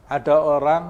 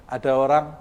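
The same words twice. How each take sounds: The two takes are said the same way.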